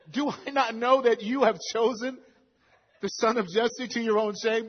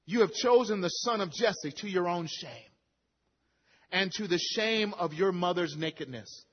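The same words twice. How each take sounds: First: Louder, raised accusing question; angry rebuke. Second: Said in the usual way. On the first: Retold or imitated. Preacher voicing Saul raging at Jonathan, angry. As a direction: hurl the accusation at his son. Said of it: "Saul's anger was kindled". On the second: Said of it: "So do you remember".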